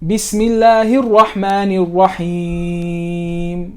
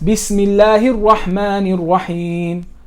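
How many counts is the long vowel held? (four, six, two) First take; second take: four; two. First: The long vowel is held for four counts. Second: The long vowel is held for two counts. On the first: "That was four" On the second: "That's two"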